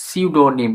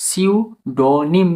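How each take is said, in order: First: সিউডোনিম run together as "siudonim", falling at the end; joined-up word demo. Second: সিউডোনিম drawn out as "siu... do-nim", higher, rising; slow syllable-by-syllable demo. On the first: Teacher gives learners the whole word, connected falling সিউডোনিম. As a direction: say সিউডোনিম in one go, P silent. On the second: Teacher breaks it down for learners, slow সিউডোনিম. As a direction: stretch each syllable of সিউডোনিম, P silent. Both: Shown as a demonstration. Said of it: "বলার ক্ষেত্রে পি silence থাকবে".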